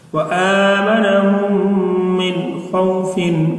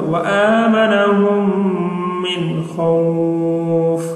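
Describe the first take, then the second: First: The last word ends with a full -in sound. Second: The last word stops short, its vowel stretched.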